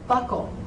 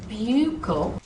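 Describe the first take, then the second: First: The word sounds exactly like belt buckle. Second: The word does not sound like belt buckle. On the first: The speaker calls it right. "it should be buckle, like belt buckle" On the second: The speaker calls it wrong. "it's not buccal"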